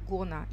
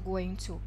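First: The words are said fast and merged together. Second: Both words are said fully and separately. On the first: "В английском она быстро произносится как gonna" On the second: "мы используем фразу going to"

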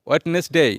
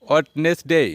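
No difference in how they are said.

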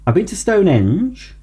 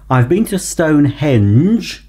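First: Stonehenge is slurred and poorly articulated. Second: Stonehenge is articulated clearly and carefully. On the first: The speaker calls it wrong. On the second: The speaker calls it right.

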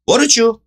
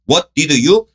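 First: The words are reduced and run together. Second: Each word is said separately and fully. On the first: The speaker calls it right. "What did you를 What did you?" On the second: The speaker calls it wrong. "이렇게 발음 안 하죠"

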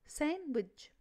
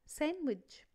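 Both takes have the same delivery.

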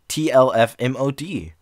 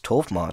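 First: TLF is said as separate letters. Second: TLF is said as a single word. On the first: "Or maybe it's all supposed to be read out" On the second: "Maybe it's TOLF mod"

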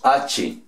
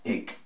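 First: It is said as two syllables, ah-cheh. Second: It is said as one syllable, like ake. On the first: The speaker calls it wrong. "Nosotros los de habla española o castellano la leeríamos H" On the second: The speaker calls it right. "la pronunciación en inglés equivale como a ick"

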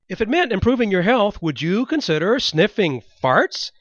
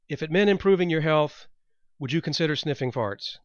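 First: The voice is lively and high in energy. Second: The voice is flat and low in energy. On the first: The speaker calls it right. "With feeling. Put your back into it" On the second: The speaker calls it wrong. "you sound boring as hell"

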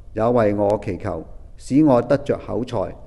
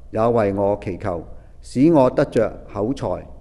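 No difference in how they are said.

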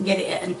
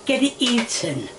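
First: It is said in a broad Yorkshire accent. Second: It is said in a standard accent. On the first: The speaker calls it wrong. "That was my Yorkshire coming out" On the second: The speaker calls it right. "It's supposed to be"

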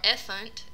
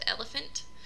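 First: The unstressed middle syllable is left out. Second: All three syllables are pronounced. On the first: The speaker calls it wrong. "unstressed syllable deletion" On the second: The speaker calls it right. "instead of"

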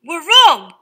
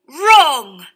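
First: The word starts with a W then R sound. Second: The word starts with a plain R sound. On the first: This is how the word was said hundreds of years ago. "the people were all pronouncing the W and the R in these words" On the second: This is how the word is said today. "words with R spelt W-R"

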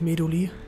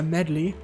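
First: The name is pronounced a non-English way. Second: The name is pronounced the English way. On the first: The speaker calls it wrong. "nicht Medley" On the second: The speaker calls it right. "Heißt ja Medley im Englischen"

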